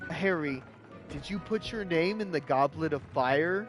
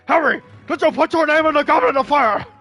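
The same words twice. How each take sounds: First: It is asked in a calm voice. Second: It is asked in an agitated voice.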